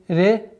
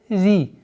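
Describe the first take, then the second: First: The vowel after R sounds like 'e'. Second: The vowel after R is a clear 'ee'. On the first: The speaker calls it wrong. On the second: The speaker calls it right.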